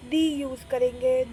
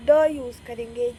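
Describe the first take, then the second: First: "the" said as "thee"; "the" rhyming with "see"; long-ee pronunciation. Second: "the" said as "thuh"; "the" with a neutral 'uh' sound; schwa pronunciation. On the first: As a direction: give "the" a long 'ee' vowel. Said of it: "कुछ लोग दी बोलते हैं". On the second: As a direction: give "the" a short 'uh' vowel. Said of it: "कुछ लोग द बोलते हैं". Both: Shown as a demonstration.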